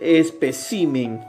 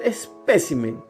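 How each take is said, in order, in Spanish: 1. La sílaba tónica es la I. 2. La sílaba tónica es la E. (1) "va a cambiar y va a ser, en este caso, en la I. Ahora va a ser" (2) "ya no va a ser"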